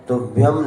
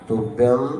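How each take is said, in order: Both takes have the same delivery.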